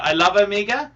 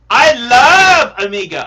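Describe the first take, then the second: First: Said in the usual way. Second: I love Omega belted out loud; loud declaration. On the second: Real, not acted. Streamer to his viewers, a loud excited declaration. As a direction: proclaim it to the whole stream.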